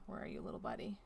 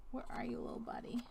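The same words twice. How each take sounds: First: Low coaxing murmur. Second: Whispered, coaxing a hiding piece. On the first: Player searching for a lost puzzle piece, low coaxing murmur. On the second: Player searching for a lost puzzle piece, playful coaxing whisper. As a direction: whisper it as if the piece might run off. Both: Pretend.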